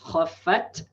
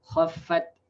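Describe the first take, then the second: First: The final t has a heavy extra puff of breath. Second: The final t has only a light breath. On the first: The speaker calls it wrong. "That's too uh, too exaggerated. It's that's uh, not it's too excessive" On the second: The speaker calls it right. "you don't add additional uh, breath"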